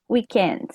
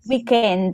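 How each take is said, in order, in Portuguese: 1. É dita com um sotaque inglês bem nítido. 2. É dita com sotaque italiano. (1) "bonitinho em inglês" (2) "com o acento deles"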